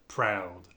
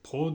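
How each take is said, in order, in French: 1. La voyelle commence ouverte, comme un « a ». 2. La voyelle commence fermée, avec les lèvres arrondies. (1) "on va dire proud. A" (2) "Au lieu de, de dire euh"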